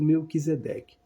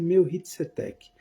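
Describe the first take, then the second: First: The name is said as Portuguese spelling reads. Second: The name is said with a foreign pronunciation. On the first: This is how the name is written. "tá escrito Melquisedeque" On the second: This is the name's real pronunciation. "A pronúncia é Melchitsedek"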